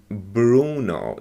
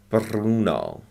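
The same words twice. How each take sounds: First: The R is a plain, unrolled American R. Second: The R is strongly rolled, Italian style. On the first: "if it were, you know, pronounced American" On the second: "they really roll, roll their R's"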